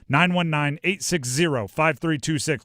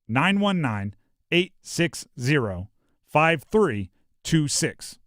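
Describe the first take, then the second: First: The number is said fast. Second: The number is said slowly.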